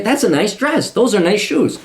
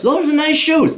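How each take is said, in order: First: Said in the usual way. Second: Compliment said much higher, sing-song; high mock compliment. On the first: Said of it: "I'm just saying". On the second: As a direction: raise the pitch on "Those are nice shoes.". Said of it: "Never said that in my life".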